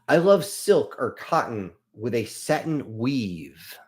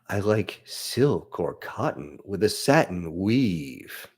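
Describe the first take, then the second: First: It is read in a plain, ordinary tone. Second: It is read in a seductive, sultry tone.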